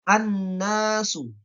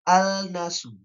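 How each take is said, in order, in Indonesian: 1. Bunyi L melebur menjadi bunyi n ganda. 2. Bunyi L dibaca jelas sebelum n.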